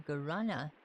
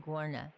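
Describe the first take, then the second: First: "guarana" with its middle syllable fully sounded; first attempted pronunciation. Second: "guarna" squeezed into two syllables; alternative pronunciation. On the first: Player reading a seed name aloud, first attempted pronunciation. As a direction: say "guarana" tentatively, keeping every syllable. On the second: Player second-guessing a seed name, alternative pronunciation. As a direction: say "guarna", dropping the middle vowel. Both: Real, not acted. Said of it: "I do mispronounce stuff a lot".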